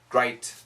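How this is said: It is said in an Australian accent. "In Australia, it's similar"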